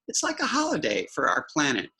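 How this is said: It is read expressively, like a character speaking.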